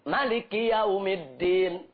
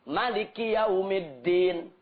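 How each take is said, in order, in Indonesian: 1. Vokal setelah m pertama pendek. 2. Vokal setelah m pertama pendek.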